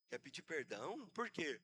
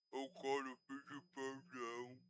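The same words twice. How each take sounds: First: Said in the usual way. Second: Low, slow, soft mumble imitating a stroke patient; barely manage to form the words; slurred stroke speech. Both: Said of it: "Fala direito".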